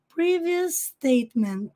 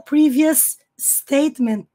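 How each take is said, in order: First: The two s sounds merge into one. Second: The two s sounds are said separately. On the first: The speaker calls it right. "nós vamos pronunciar o som uma vez e usar para as duas palavras" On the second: The speaker calls it wrong. "ele não fala previous statement"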